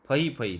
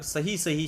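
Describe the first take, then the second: First: The word begins with an f sound. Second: The word begins with an s sound. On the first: The speaker calls it wrong. "स को बदल के उसने फ कर दिया" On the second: The speaker calls it right. "सही सही शब्द है"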